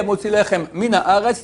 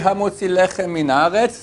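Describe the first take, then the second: First: The words are kept separate. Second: The words are linked together. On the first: It shows the speaker is learned. The speaker calls it right. "c'est pas un ignare" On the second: It shows the speaker is ignorant. The speaker calls it wrong. "c'est un ignare"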